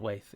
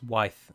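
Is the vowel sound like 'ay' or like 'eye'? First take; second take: ay; eye. First: The vowel sounds like 'ay'. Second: The vowel sounds like 'eye'. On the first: The speaker calls it wrong. "it's not Waith" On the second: The speaker calls it right. "it's Wyth"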